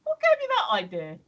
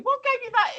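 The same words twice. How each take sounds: First: Louder, higher pretend retort; imagined retort to the shop lad, half-sarcastic; sarcastic comeback. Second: Higher, louder mock retort; sarcastic pretend retort to the shop lad; sarcastic comeback. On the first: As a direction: throw the question back with mock offence. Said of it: "should have turned to him and said". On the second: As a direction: snap back with pretend indignation. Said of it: "I felt like I actually should have said".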